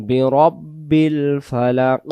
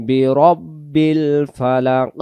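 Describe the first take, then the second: The two takes are said the same way.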